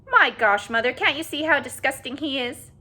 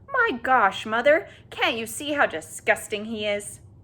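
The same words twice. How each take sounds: First: It is said in a high, squeaky voice. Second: It is said in an ordinary voice.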